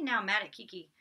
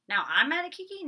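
First: Said in the usual way. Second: High-pitched baffled echo; puzzled questioning. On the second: Real, not acted. Vlogger doubting the notes just read out, puzzled. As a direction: query your own words in a raised pitch.

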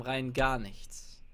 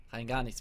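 First: "Rein gar nichts" stretched slowly, each word lingered on; slow deadpan drawl; drawn out. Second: Said in the usual way. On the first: Acted. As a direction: drag out "gar" for emphasis. Repeats the line twice.

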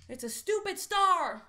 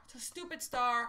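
First: Higher, louder, mock-disgusted jab; annoyed. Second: Said in the usual way. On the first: Real, not acted. At a losing lottery symbol, mock-disgusted outburst.

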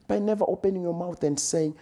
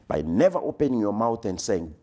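First: Much higher and faster, the refrain at its peak; rising climax. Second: Said in the usual way. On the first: Shown as a demonstration. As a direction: lift it high and push the pace. Repeated refrain, climax of build.

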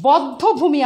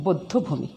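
First: বদ্ধভূমি as "bawddhobhumi"; rule-based open vowel. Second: বদ্ধভূমি as "boddhobhumi"; closed "o" in first syllable of বদ্ধভূমি; exceptional closed vowel. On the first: Teacher shows the form not used, বদ্ধভূমি with open "aw". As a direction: open "aw" in first syllable of বদ্ধভূমি. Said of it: "বদ্ধভূমি হবে না". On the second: Teacher gives the real pronunciation, বদ্ধভূমি with closed "o". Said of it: "এটার উচ্চারণ আসলে". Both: Shown as a demonstration.

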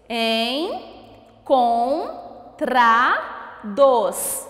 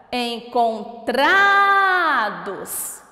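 First: "Encontrados" em quatro sílabas, com pausas; separando as sílabas. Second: TRA de "Encontrados" muito esticado e forte; chamando a palavra. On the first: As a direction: diga "Encontrados" pausado: en, con, tra, dos. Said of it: "Vamos descobrir primeiro quantas sílabas". ("Encontrados" silabado bem devagar) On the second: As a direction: chame "Encontrados" prolongando o TRA. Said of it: "E qual é a sílaba tônica?". ("Encontrados" sem pausas, com TRA longo) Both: Shown as a demonstration.

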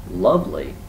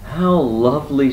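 First: Acted scornful repeat; disbelieving echo. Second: High, loud, pleased bear; acted delight. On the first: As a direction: throw the word back in disbelief. Rabbit echoes Bear in disbelief. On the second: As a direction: exclaim with real pleasure, pitched up.

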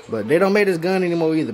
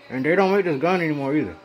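First: Said in the usual way. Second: Speaking with something in the mouth; muffled words around a mouthpiece; mouth full. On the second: Real, not acted. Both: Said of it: "Sorry, I got this in my mouth again".

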